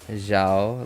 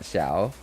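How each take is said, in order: First: The name begins with a z-like sound. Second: The name does not begin with a z-like sound. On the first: The speaker calls it right. "It's probably more like Zhao, like Z H A O" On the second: The speaker calls it wrong. "It's not Xiao"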